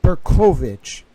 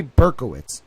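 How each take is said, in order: First: "Berkovich" as bur-KOH-vich, louder; "Berkovich" stressed on a long "koh"; remembered pronunciation. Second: "Berkowitz" as BURK-uh-wits; "Berkowitz" stressed on the first syllable; rejected pronunciation. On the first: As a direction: say "Berkovich" with a "v" and a "ch" ending. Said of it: "It was like". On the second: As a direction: say "Berkowitz" with a "w" and a "ts" ending. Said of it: "the guy didn't say". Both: Shown as a demonstration.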